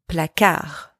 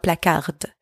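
First: The final D is silent. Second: The final D is pronounced. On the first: The speaker calls it right. "don't pronounce the D at the end" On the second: The speaker calls it wrong. "don't pronounce the D at the end. It's not placard"

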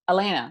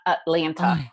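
First: One of the T sounds is dropped. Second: Both T sounds are pronounced. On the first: The speaker was born and raised there. The speaker calls it right. "we always remove at least one of the T's. So it's Atlanta" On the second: The speaker is not from there. The speaker calls it wrong. "not Atlanta"

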